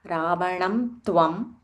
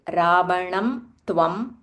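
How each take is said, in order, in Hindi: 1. tvam से पहले का नासिक्य m ध्वनि है। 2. tvam से पहले का नासिक्य m ध्वनि है।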